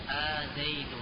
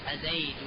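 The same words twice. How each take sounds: First: The opening vowel is drawn out long. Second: The opening vowel is short.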